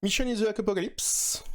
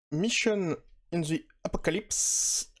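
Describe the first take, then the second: First: Mission in the Apocalypse pitched high in a self-mocking English accent; hammed-up English accent. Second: A slow, careful try at an English title with a French accent; drawing out Mission in the Apocalypse in hesitant English; mock English accent. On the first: Joking to viewers about his superbe accent, high hammed-up English. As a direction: show off a proudly bad English accent. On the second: Reading the English title to viewers, a slow mock English accent. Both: Shown as a demonstration. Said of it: "mon superbe accent".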